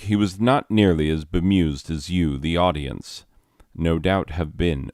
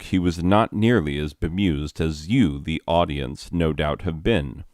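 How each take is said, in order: First: A sentence-like break falls after 'the audience'. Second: The phrase flows on through 'no doubt have been'. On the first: The speaker calls it wrong. "let me reread that so that the pauses make sense" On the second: The speaker calls it right. "so that the pauses make sense and I don't sound like an idiot"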